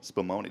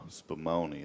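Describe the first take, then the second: First: The word is said at normal speed. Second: The word is said slowly and drawn out.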